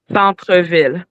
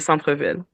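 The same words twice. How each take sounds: First: The word is said slowly and carefully. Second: The word is said at normal conversational speed.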